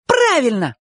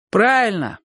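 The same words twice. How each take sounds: First: High, jubilant squeal; joyful shout. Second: Grudging, drawn-down agreement; gloomy confirmation. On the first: Sonka confirms it and jumps, joyful shout. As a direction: cry it out, jumping for joy. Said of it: "крикнула Сонька". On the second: Boys confirm Chik's answer to Bocho, gloomily. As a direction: concede it glumly. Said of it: "мрачно подтвердили ребята". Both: A narrator's reading.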